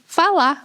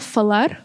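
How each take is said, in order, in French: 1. Le son r final est supprimé. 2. Le son r final est prononcé. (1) "on dit fala, et on élimine le r" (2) "on ne dit pas falar"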